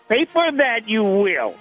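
It is said in an imitated Yoda voice.

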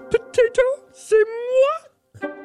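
It is said in a Miss Piggy voice.

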